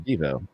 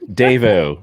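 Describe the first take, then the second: First: The word is said without the full accent. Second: The word is said with the full accent.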